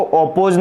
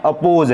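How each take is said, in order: First: अपोज misread as 'op-pose'; wrong first vowel. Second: अपोज opening on a short 'uh'; unrounded first vowel in अपोज; correct first vowel. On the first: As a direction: start अपोज with a rounded o. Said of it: "नहीं पढ़ना है". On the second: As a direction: say अपोज as 'uh-pose'. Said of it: "ओ का sound यहाँ पर अ है". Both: Shown as a demonstration.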